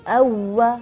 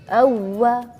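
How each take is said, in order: Both takes have the same delivery.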